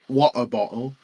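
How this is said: It is said in a British accent, T dropped.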